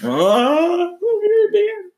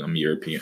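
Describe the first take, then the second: First: High, loud, hammed-up sobbing; a falsetto sob as the news sinks in; mock crying. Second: Said in the usual way. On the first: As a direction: break down crying over being European. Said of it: "I'm still in shock". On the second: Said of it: "just repeating those words".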